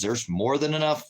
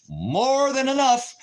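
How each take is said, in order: First: Said in the usual way. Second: "more than enough" stretched out slow and much higher; drawn-out emphasis. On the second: Real, not acted. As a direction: drag out "enough" high and slow to stress it. Repeats the phrase twice.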